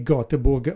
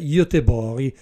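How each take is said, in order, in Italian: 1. Il nome si dice con pronuncia italiana. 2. Il nome si dice con pronuncia svedese. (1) "una pronuncia tutta italiana" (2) "gli svedesi invece la chiamano, come dovrebbe essere"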